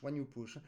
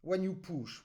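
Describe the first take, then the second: First: "when you push" much softer and lower; "when you push" murmured low; soft echo. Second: "when" stressed; "when you push" said firmly, stress on "when"; pushing accent. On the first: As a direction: let the repeat fall away quietly. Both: Shown as a demonstration. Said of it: "try again to find".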